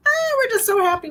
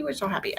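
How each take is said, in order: First: High, louder burst of happiness; gushing joy. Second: Said in the usual way. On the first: Real, not acted. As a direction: let the joy spill over on so happy. Gushing about family visit.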